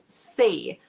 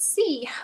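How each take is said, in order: First: The vowel sounds like 'ay'. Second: The vowel sounds like 'ee'. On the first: The speaker calls it right. "but it's say" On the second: The speaker calls it wrong. "It's not sea"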